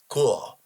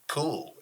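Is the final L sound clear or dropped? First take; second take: clear; dropped. First: The final L is clearly pronounced with the tongue. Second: The final L is loose and barely pronounced. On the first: It sounds proper for a corporate spot. The speaker calls it right. "You got to put the tongue in it" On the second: It gives a relaxed, casual urban vibe. The speaker calls it wrong. "you just can't say that's cool"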